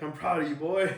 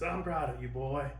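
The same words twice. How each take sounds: First: It is said without a Yondu impression. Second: It is said in an imitation of Yondu's voice.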